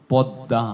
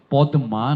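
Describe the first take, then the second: First: পদ্মা said podda with a nasal ending; nasal doubled d. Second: পদ্মা said podma with a plain m; wrong pronunciation. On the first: Teacher demonstrating nasal পদ্মা. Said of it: "শেষের দয় চন্দ্রবিন্দু". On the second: Teacher showing the wrong পদ্মা. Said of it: "পদ্মা নয়". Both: Shown as a demonstration.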